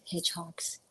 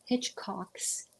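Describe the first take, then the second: First: Hitchcocks with the middle k dropped; a soft, slipped "Hitchcocks" without its k; slurred name. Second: Hitchcocks with a crisp middle k; careful correction. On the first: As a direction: say "Hitchcocks" like "hitch-hocks", softly. Stumbles on name, corrects it. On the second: Corrects slipped name. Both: Real, not acted.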